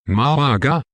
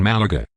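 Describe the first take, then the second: First: "Malaga" said alone with a rising end; set-apart pronunciation. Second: Said in the usual way. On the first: Shown as a demonstration. Narrator repeats the city name for the listener, rising pronunciation. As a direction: say "Malaga" higher, lifting the last syllable like a question.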